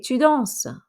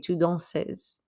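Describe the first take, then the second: First: The final s of danses is silent. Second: The final s of danses is pronounced. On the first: The speaker calls it right. "we don't say that S at the end. I'm saying the first S, but not the second S" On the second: The speaker calls it wrong. "I don't say tu danses"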